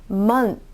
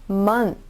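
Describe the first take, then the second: Both takes have the same delivery.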